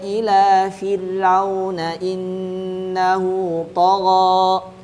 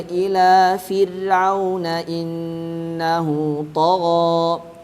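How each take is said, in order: Both takes have the same delivery.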